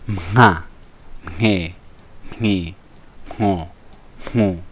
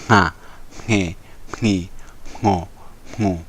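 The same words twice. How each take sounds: First: The syllables are said slowly. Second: The syllables are said fast.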